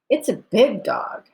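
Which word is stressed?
big. The stress falls on the word big. The dog is big, not another size. "No, it's really more medium sized"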